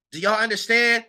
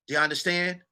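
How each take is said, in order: First: Said in the usual way. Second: The question dropped to a softer aside; softer, half to himself; softer repeat. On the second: Real, not acted. Asking viewers again, softer.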